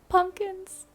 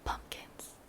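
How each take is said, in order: First: A high delighted squeal; excited squeal. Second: Breathy hushed whisper of delight; a soft thrilled whisper; excited whisper. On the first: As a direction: burst out thrilled after the whisper. Bursts out after whispering pumpkins. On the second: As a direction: whisper it like a secret treasure. Excited whisper on new pumpkins. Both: Real, not acted.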